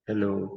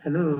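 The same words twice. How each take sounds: First: It is said with a harsh, growling tone. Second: It is said with a warm, loving tone. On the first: "घुर्रा के भी बोल सकते" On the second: "प्यार से भी बोले"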